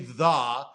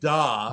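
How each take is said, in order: First: It begins with a soft 'th' sound. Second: It begins with a hard 'd' sound. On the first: The speaker calls it right. "you don't say the" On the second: The speaker calls it wrong. "you're saying duh"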